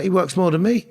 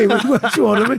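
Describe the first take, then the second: First: Laughs through the words; amused disbelief, chuckling; laughing it out fondly. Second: Higher and louder, delighted; thrilled repeat, pitched way up; excited. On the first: Laughing about brother's busy work. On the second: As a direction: say it again with gleeful disbelief. Excited repeat after laughing. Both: Real, not acted.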